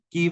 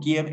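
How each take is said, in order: First: The city name is said the Ukrainian way. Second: The city name is said the Russian way. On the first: It is the official name. The speaker calls it right. "el nombre oficial es Kiev" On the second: It carries a colonial connotation. The speaker calls it wrong. "el exónimo Kiev es ruso"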